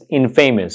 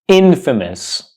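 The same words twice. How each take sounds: First: It sounds like 'in' joined to 'famous'. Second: It does not sound like 'in' plus 'famous'. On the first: The speaker calls it wrong. "I know it's a combination of in and famous, but it's not pronounced infamous" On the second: The speaker calls it right. "It's pronounced infamous"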